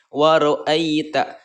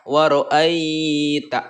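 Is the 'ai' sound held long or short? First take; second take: short; long. First: The 'ai' sound is short and soft. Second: The 'ai' sound is drawn out long. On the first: The speaker calls it right. "jangan dibaca panjang, dibaca pendek ya" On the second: The speaker calls it wrong. "jangan dibaca"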